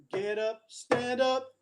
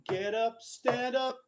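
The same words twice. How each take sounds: The two takes are said the same way.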